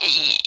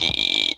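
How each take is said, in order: First: Piercingly high "ee" pig squeal; high squealed "ee", the higher version; very high chirp. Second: Squealed "ee", short of full height; vocal-fry squeal on "ee", the lower version; lower chirp attempt. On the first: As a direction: imitate their chirp, squealing as high as it goes. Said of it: "they go so fucking high up there". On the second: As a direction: imitate a pig-squeal chirp that can't get all the way up. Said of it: "sixty percent their pitch". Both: Shown as a demonstration.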